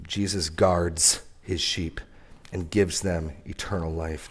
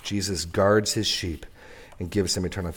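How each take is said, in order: First: Jesus guards his sheep drawn out very slowly and softly; slow, solemn first statement. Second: Said in the usual way. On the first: Shown as a demonstration. Preacher savoring the promise for the church, very slow and soft. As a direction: let each word of guards land slowly. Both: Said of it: "this is amazingly good news".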